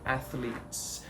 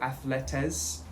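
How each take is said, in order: First: The consonants are run together without extra vowels. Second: The consonants are split apart by an extra vowel. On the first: The speaker calls it right. "the plural version of athlete, which is athletes" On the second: The speaker calls it wrong. "people will say ath athletes or athletes"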